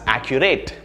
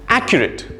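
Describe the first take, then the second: First: The last syllable is a full 'rate' sound. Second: The first syllable is stressed, the last reduced. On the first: The speaker calls it wrong. "There's a rate in that word. Well, not really. This is incorrect" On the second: The speaker calls it right. "three syllables, and the stress is in a, right? The first syllable"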